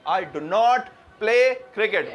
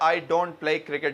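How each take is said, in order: First: 'Not' is separate and said with emphasis. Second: 'Not' is contracted into 'don't' without emphasis. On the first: The speaker calls it right. "जब हमेशा अलग हो जाता है" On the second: The speaker calls it wrong. "कभी यूं नहीं कहते आई डोंट प्ले क्रिकेट जब जोर दे रहे होंगे"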